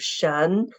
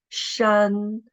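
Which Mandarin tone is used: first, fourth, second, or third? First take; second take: second; first. First: The syllable is said with the second tone. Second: The syllable is said with the first tone. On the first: "The second tone" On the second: "the tone is the first tone"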